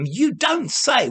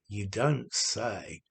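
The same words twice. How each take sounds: First: It is said in a lively, surprised tone. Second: It is said in a flat, bored tone. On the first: The news is genuinely surprising and good. "it's like uh, surprise and congratulation" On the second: This always happens. "if you deliver it in a bored way, then you're being ironic"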